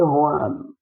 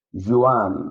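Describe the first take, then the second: First: "Juan" as HWAN, h for J; Spanish Juan. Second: "Juan" with a voiced j or zh at the start; English-style Juan. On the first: Teacher correcting the English reading, Spanish h sound. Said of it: "but it's actually Juan". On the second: Teacher showing an English person's reading, j sound kept. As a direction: say "Juan" as JOO-an. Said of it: "An English person could pronounce this as". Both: Shown as a demonstration.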